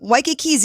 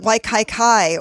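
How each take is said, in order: First: The last syllables are said with an 'ee' vowel. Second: The last syllables are said with an 'eye' vowel. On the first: This is how locals say it. The speaker calls it right. "Waikiki's easy" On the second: This is how tourists say it. The speaker calls it wrong. "people pronounce it Waikaikai"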